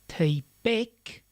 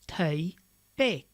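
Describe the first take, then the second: First: It is one compound word stressed on the second syllable. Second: It is two separate words, each with its own stress. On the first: The speaker calls it right. "It's not two words, it's a compound word" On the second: The speaker calls it wrong.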